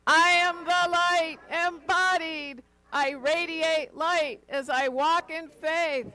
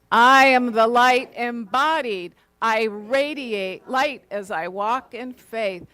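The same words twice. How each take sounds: First: High, loud and slow joyful shout; shouting to the heavens. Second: Louder and slower, every word pressed firmly; emphatically. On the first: Minister leads the congregation's affirmation, shouting it joyfully to the heavens. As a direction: lift it up and shout it to the sky. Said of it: "shouting it to the heavens". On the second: Minister leads the congregation's affirmation, emphatic and slow. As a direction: declare it with full conviction, slowly. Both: Shown as a demonstration.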